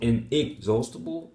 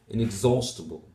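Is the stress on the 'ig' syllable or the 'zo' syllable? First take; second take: ig; zo. First: The stress falls on the 'ig' syllable. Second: The stress falls on the 'zo' syllable. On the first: The speaker calls it wrong. "the primary stress is on the first ig. Is that correct? Is it inexhaustible? No" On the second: The speaker calls it right. "the primary stress is on the second syllable, the zo"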